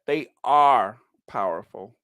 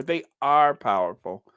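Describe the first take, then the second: First: ARE held long and rising; savoring ARE in "They are powerful"; stress on ARE. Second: ARE lifted, steady; weight on ARE; repeating "They are powerful" with ARE stressed. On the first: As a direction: lean on ARE. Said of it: "I like that". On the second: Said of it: "I love that". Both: Shown as a demonstration.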